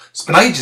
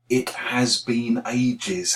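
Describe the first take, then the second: First: The words run together quickly and reduced. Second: Every word is said fully and separately.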